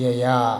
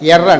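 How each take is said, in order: First: The final r becomes a vowel-like glide. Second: The final r is clearly rolled and pronounced. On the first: This is how native speakers say it. "German వాళ్ళు ఏయా" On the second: This follows the spelling, as non-native speakers say it. "మనకు స్పెల్లింగ్ ప్రకారం మనం non native Germans ఏమంటాం, ఎర్ర అంటామా"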